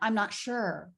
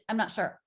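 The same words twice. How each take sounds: First: The words flow smoothly with a longer stressed word. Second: The words are quick and choppy. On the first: The speaker calls it right. "Like it's all part of this wave" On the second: The speaker calls it wrong. "I heard from you a little bit"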